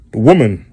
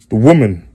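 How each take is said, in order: Both takes have the same delivery.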